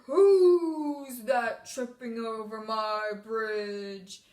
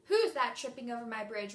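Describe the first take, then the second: First: Loud, low, very slow troll; best troll voice. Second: Said in the usual way. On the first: Shown as a demonstration. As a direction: boom it out slowly like a storybook troll. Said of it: "We used our best troll voice". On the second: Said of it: "remember we didn't say".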